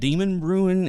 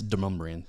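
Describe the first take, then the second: First: The name sounds like 'Demon Bruin'. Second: The name is pronounced in the local way. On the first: This is how outsiders say it. The speaker calls it wrong. "everybody's like that, that Demon Bruin" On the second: This is how local people say it. The speaker calls it right. "it's Demumbrian"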